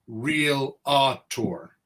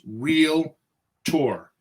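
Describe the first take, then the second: First: The word is said with three syllables. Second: The word is said with two syllables. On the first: The speaker calls it wrong. "It's not real a tour" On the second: The speaker calls it right. "it's real tour"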